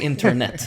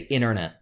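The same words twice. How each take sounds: First: The t after the n is clearly pronounced. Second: The t after the n is dropped. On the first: It sounds like someone not from the US. "I say internet. I tut, tut, tut" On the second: It sounds American. "Americans say internet. They remove the"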